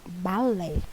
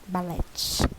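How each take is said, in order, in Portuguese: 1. A palavra termina sem nenhum som de T. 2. Um T final é pronunciado.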